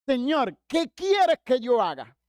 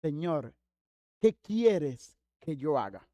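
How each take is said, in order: First: Raised, higher-pitched slow appeal; fervent plea. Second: Low, slow, subdued question; mildly timid. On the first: Believer eager to please God, loud acted plea. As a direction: cry it out to God in mock earnest. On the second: Pablo humbly asks the Lord, mildly fearful and subdued. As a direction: ask it humbly, with a touch of fear. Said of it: "temblando y temeroso, dice". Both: Retold or imitated.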